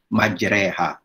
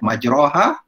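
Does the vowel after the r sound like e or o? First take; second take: e; o. First: The vowel after the r sounds like e. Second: The vowel after the r sounds like o. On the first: The speaker calls it right. "tapi sebutannya adalah majreha" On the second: The speaker calls it wrong. "sebutan dia bukan majra, majroha"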